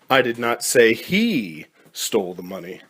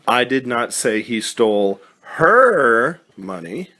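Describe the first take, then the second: First: The stress is on he. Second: The stress is on her.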